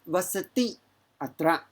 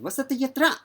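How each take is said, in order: First: The two words are said separately, unjoined. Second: The two words are run together into one. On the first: The speaker calls it wrong. "when you pronounce, is not uh, vasati atra" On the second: The speaker calls it right. "It will be"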